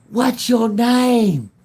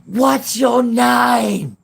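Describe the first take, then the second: First: High, drawn-out loud holler; retold long-distance shout; calling across a field. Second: High, very slow loud holler; imitated long-distance shout; calling across a field. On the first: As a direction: yell it long and high to carry. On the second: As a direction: stretch it out in a high yell. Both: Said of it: "literally across the field".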